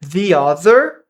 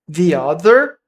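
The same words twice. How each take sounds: Both takes have the same delivery.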